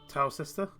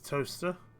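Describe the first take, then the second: First: It is said in three syllables, as written. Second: It is said in two syllables, like toaster. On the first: The speaker calls it wrong. "if you just said literally would be Towcester" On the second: The speaker calls it right. "but it's Toaster"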